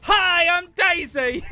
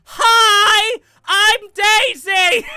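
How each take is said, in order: First: High, slow princess chant; Daisy voice. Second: Shrieked high, slow princess chant; Daisy voice. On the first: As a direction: sing it out like a smug Princess Daisy. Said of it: "It used to trigger me so much". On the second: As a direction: screech it like a gloating Princess Daisy. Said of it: "her fucking chant". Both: Retold or imitated.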